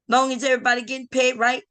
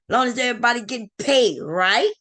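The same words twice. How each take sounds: First: The voice falls on "right" like a statement. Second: The voice rises on "right" like a question. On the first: It states that everyone is fine. The speaker calls it wrong. "you didn't read that right" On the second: It asks whether everyone is okay with it. The speaker calls it right. "there's a question mark there. ... There's also a comma. So it should be like"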